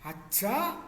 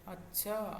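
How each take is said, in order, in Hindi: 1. यह आश्चर्य वाले ढंग से कहा गया है। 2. यह उदासीन ढंग से कहा गया है। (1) "तो आश्चर्य है" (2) "तो वो उदासीन है"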